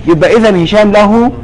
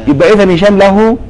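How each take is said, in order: Both takes have the same delivery.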